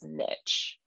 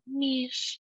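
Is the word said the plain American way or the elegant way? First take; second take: American; elegant. First: It is said the plain American way. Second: It is said the elegant, non-American way. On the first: The speaker calls it wrong. "my like default is niche, which is so like for the Americans to just totally butcher" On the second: The speaker calls it right. "It's so beautiful"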